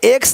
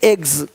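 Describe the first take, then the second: First: The word ends with a hissing s sound. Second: The word ends with a buzzing z sound. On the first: The speaker calls it wrong. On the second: The speaker calls it right.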